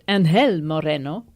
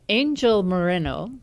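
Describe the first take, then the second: First: The name is pronounced with Spanish sounds. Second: The name is pronounced with English sounds.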